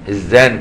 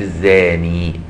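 First: The word ends without a final ee vowel. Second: The word ends with a long ee vowel. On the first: "بغير إثبات الياء" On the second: "بإثبات الياء"

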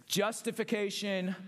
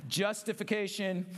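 The two takes are said the same way.

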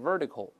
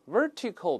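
First: The t is voiced, like a soft d. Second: The t is a crisp, voiceless t.

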